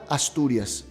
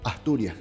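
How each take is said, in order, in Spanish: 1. La s es un sonido silbante claro. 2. La s es un sonido aspirado, parecido a una h. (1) "como S" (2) "como un fonema aspirado"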